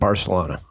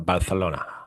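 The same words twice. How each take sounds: First: It is pronounced the ordinary English way. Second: It is pronounced the Castilian Spanish way.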